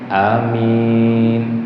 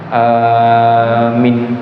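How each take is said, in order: First: The first vowel is short, the second long. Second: The first vowel is long, the second short. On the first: The speaker calls it right. "pendek panjang, a-nya pendek" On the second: The speaker calls it wrong. "panjang pendek"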